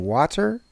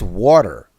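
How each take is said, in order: First: Water with an open AH, WAH-ter; water as a questioning wah-ter; contrasting pronunciation. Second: Water with a rounded AW, WAW-der; water with a heavy AW, incredulous; daughters' pronunciation mimicked. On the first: Retold or imitated. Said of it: "Do you mean water?". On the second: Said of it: "my daughters do, they do like this".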